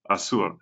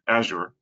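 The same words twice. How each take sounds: First: It is said in a Spanish accent. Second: It is said in an American English accent. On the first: "if you speak Spanish, uh, it might sound like" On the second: "in U S English, it sounds like"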